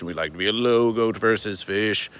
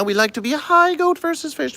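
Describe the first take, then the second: First: A touch lower, settled voice; slightly lower, relaxed version of the same line. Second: Very high, strange squeaky voice; high-pitched novelty voice, far from the usual one. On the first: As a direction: drop back down, calm and low. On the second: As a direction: jump way up into a cartoonish high register. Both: Shown as a demonstration.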